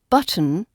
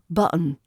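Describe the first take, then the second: First: The t in the middle is clearly pronounced. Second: The t in the middle is lost. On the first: The speaker calls it right. "keep the T nice and clear" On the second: The speaker calls it wrong. "Don't let it slip into button"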